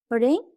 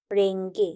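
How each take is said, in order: First: রেঙ্ক ending in a hard k, pitch rising; base form with K. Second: রেঙ্গে with a g after the ng, falling; K softened to G. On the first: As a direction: end রেঙ্ক on a crisp k sound. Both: Shown as a demonstration. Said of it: "তে রূপান্তরিত হয়েছে".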